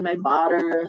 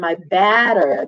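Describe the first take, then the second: First: The last word has the vowel of 'cup'. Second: The last word has the vowel of 'cat'. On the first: The speaker calls it wrong. "if I will read all of the butters the same way" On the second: The speaker calls it right. "that's a short A"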